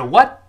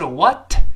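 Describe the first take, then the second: First: The final t is held without release. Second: The final t is clearly released. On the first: The speaker calls it right. "而是what，舌尖顶住憋住气" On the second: The speaker calls it wrong. "不是what"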